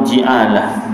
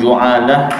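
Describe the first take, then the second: First: The first vowel is an i sound. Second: The first vowel is an u sound.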